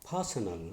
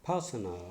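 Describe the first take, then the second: Both takes have the same delivery.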